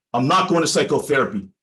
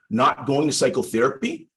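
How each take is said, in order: First: A mild retold flash of anger, falling hard at the end; firm, lightly angry refusal with the end dropping down; a touch of anger as the client digs in; angry retort. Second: "Not going to psychotherapy?" said as a gentle question, the pitch rising through "going"; upward inflection. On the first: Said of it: "Jay said very angrily". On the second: Shown as a demonstration. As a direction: mirror the words back, lifting "going" into a question. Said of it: "replied with an upward inflection".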